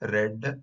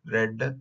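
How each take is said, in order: First: The vowel is short, like in 'bed'. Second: The vowel is short, like in 'bed'.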